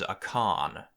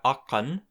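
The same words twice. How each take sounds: First: Akan drawn out slowly; second form akan. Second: Akan said at an even pace; akan, the first of two forms. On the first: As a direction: stretch akan out slowly to contrast it. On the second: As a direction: say akan at normal speed. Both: Shown as a demonstration.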